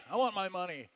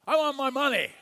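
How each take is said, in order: First: Said in the usual way. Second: Louder, higher snarl of a creditor; mock angry debt collector; angry demand. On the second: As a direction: demand the money with menace. Servant choking a debtor.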